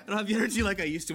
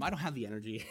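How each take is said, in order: First: Emphatic repeat. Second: Said in the usual way. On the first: Real, not acted. Repeats line, louder and faster.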